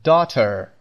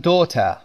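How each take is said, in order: First: Daughter with an American pronounced final R; American accent. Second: Daughter with a British silent R; British accent. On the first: Teacher contrasting it with British for learners, American accent. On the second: Teacher showing learners the British pronunciation, British accent. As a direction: say daughter the British way, dropping the final R. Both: Shown as a demonstration.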